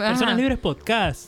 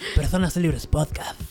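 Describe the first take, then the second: First: It is said in an Argentine accent. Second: It is said in a Spanish accent.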